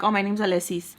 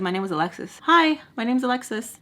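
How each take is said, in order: First: "Alexis" said as "ah-leh-SEES"; mock introduction, "Alexis" ending in "sees"; softer, with "Alexis" losing its x: "Aleh-sees"; mispronounced name. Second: Said in the usual way. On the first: Shown as a demonstration. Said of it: "I wasn't like". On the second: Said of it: "introduced myself and said".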